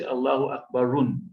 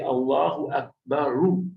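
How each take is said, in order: First: The last word ends with an added n sound. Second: The last word ends on a plain vowel. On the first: The speaker calls it wrong. "We don't say Allahu Akbarun" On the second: The speaker calls it right. "we say Allahu Akbaru"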